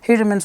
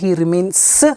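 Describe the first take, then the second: First: The final S sound is said naturally. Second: The final S sound is stretched and exaggerated. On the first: The speaker calls it right. "I was not exaggerating the word" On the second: The speaker calls it wrong. "Did I say he remains? No"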